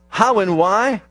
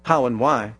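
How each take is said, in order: First: How and why? asked with a rise on how; asking tune. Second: How and why. said low and falling as the answer; answering tune. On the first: Preacher asks the congregation, rising question. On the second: Preacher answers his own question, low and falling. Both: Shown as a demonstration. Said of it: "the next word tells us".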